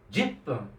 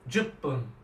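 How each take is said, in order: First: The first vowel sounds like 'i'. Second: The first vowel sounds like 'u'. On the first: This sounds like an older generation from a certain region. "it's not jupun, it's jipun" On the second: This is the commonly taught form. "a lot of teachers will probably teach"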